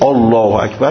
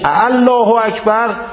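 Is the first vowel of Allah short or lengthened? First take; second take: short; lengthened. First: The first vowel of Allah is short. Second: The first vowel of Allah is drawn out. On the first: It declares that God is great. The speaker calls it right. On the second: It asks whether God is great. The speaker calls it wrong.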